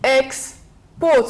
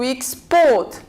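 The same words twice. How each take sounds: First: The stress is on the first syllable. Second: The stress is on the second syllable. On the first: It is a noun. "If it is a noun, we stress on the first" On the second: It is a verb. "If it is a verb, we stress on the second syllable"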